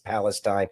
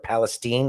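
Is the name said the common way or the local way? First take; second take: common; local. First: The name is said the common, general way. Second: The name is said the local residents' way.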